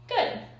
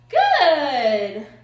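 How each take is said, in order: First: It is said in a calm, even tone. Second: It is said in an excited, lively tone. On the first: The speaker calls it right. "my marker word" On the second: The speaker calls it wrong. "I get really excited"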